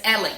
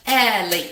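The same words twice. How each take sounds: First: Said in the usual way. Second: Ellie split into two loud beats; syllable by syllable. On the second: Shown as a demonstration. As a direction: punch out both syllables of Ellie separately. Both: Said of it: "Two syllables".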